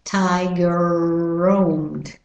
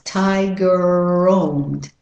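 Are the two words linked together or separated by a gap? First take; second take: linked; linked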